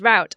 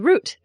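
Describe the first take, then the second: First: It is said with an American pronunciation. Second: It is said with an English pronunciation.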